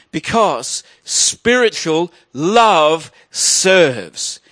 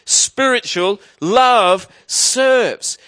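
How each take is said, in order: First: Slow, weighty stress on love; slow emphatic. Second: Slow, weighty stress on love; slow emphatic repeat. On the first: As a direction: lean hard on love, slowly. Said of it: "preacher driving home key line". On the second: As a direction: hammer love home, slowly. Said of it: "repeats key line for emphasis". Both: Shown as a demonstration.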